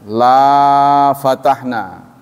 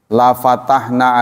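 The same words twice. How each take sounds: First: The vowel in 'la' is long. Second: The vowel in 'la' is short. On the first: We would not open. The speaker calls it wrong. "Kalau dibaca panjang" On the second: We would surely open. The speaker calls it right. "lanya itu enggak panjang ya"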